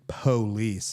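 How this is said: It is said the Southern way. It marks the speaker as from the South. "a big indicator you're from the South is saying police"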